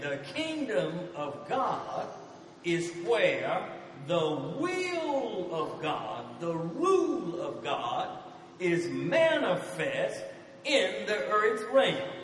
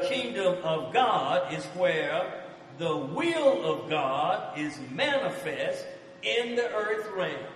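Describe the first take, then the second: First: It is said more slowly. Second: It is said at normal speed.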